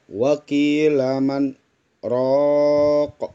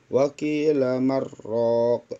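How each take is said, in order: First: A brief stop separates man and raq. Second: The n merges into the r without stopping. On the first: The speaker calls it right. "berhenti sejenak tanpa bernapas" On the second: The speaker calls it wrong. "Seharusnya dibaca wakila marraq"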